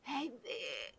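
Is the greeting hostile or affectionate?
affectionate. It sounds warm and affectionate.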